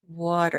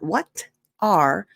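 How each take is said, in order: First: It is blended into one short reduced word. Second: It is said as two full, separate words. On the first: The speaker calls it right. "It's almost like water, but smaller" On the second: The speaker calls it wrong. "notice it's not what are"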